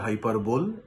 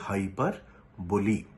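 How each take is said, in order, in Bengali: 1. শব্দটি "l" দিয়ে শেষ হয়, কোনো শেষ স্বরধ্বনি নেই। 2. শব্দটি একটি যোগ করা শেষ "ee" স্বরধ্বনি দিয়ে শেষ হয়। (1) "অনেকে বলে হাইপারবোল, that is the wrong pronunciation" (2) "মনে রাখতে হবে হাইপারবোলি"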